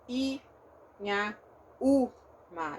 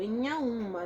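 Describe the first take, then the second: First: The vowels are oral, without nasalization. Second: The vowels are nasalized. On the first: The speaker calls it wrong. "Eu não falo" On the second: The speaker calls it right.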